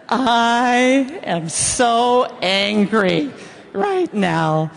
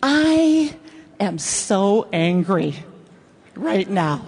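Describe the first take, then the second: First: Slow, smiling sweetness on angry; sweetly serene, grinning through it; smiling calm. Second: Said in the usual way. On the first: Shown as a demonstration. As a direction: say it slow with a big smile. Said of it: "with a beautiful smile on your face". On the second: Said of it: "try this sentence with me".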